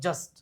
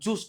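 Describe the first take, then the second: First: The vowel is a short 'uh' sound. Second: The vowel is an 'oo' sound. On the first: The speaker calls it right. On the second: The speaker calls it wrong. "જુસ્ટ નહીં કરવાનું"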